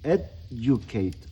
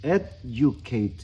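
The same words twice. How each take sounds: No difference in how they are said.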